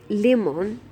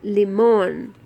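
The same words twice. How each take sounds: First: The stress is on the first syllable. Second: The stress is on the last syllable. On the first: The speaker calls it wrong. "automatically putting the accent on the first I" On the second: The speaker calls it right. "we have to put it on the last, on this last vowel"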